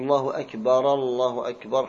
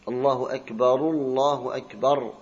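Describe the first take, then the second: First: The final r of akbar has no vowel. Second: The final r of akbar takes a u vowel. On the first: The speaker calls it wrong. "خطأ" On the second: The speaker calls it right. "الصواب أنه يحركه بالضمة"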